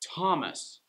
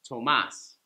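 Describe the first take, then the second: First: The stress is on the first syllable. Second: The stress is on the second syllable. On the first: This is the English form of the name. "it's going to be first syllable that gets the stress, like Thomas" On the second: This is the Spanish form of the name. "Tomas is Spanish"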